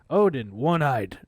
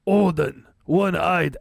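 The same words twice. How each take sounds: First: It is read in a plain, natural voice. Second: It is read in a put-on Viking voice.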